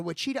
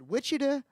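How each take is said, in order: First: Wichita with stress on the middle, wih-CHEE-tah; alternative pronunciation. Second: Wichita with stress on the first syllable, WITCH-ih-taw; first pronunciation option. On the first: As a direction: say Wichita as wuh-CHEE-tuh. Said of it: "I never know how to say this". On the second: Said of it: "what is it, Wichita or Wichita?". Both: Shown as a demonstration.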